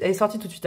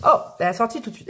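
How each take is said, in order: First: Said in the usual way. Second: Fast, eager "elle est sortie tout de suite"; quick delighted "Oh, elle est sortie tout de suite"; excited rush. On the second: Real, not acted.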